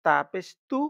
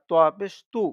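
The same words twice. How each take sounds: First: "তু" with lips slightly apart, light T; slightly open lips. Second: "তু" with rounded lips, loud and heavy; rounded-lip pronunciation. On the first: Teacher showing learners the contrast, "তা পেশ তু" with lips slightly parted. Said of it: "ঠোঁটটা একটু ফাঁকা করে". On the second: Teacher showing learners the contrast, "তোয়া পেশ তু" with rounded lips. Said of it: "ঠোঁট গোল করে উচ্চারণটা". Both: Shown as a demonstration.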